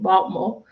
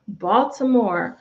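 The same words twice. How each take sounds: First: It is said in a local Baltimore pronunciation. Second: It is said in a general American pronunciation.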